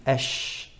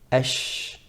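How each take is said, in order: First: The sh sound is long and spread. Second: The sh sound is long and spread.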